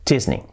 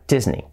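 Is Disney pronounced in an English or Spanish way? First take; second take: English; English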